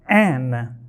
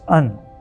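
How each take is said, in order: First: The word is said with a full vowel. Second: The word is said with a reduced vowel. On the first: "the indefinite article" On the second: "usually in natural speech pronounced as un"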